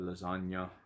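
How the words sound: The word has an Italian pronunciation.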